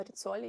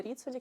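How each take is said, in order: First: Ріцолі stressed on the middle syllable, ЦО; corrected pronunciation. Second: Ріцолі stressed on the first syllable, РІ; former mispronunciation. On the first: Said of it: "мені сказали, що реально Ріцолі". (Ріцолі з правильним наголосом на ЦО) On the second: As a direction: say Ріцолі the mistaken way, accent up front on РІ. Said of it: "Я реально її раніше називала". (Ріцолі з помилковим наголосом на перший склад) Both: Shown as a demonstration.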